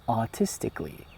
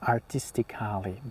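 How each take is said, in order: First: The ending is said as 'kli' without that vowel. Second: The ending is said with a full 'kali' vowel. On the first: The speaker calls it right. "just silent the A and say artistically" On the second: The speaker calls it wrong. "you might pronounce it like Kali, for example, artistically, but this is wrong"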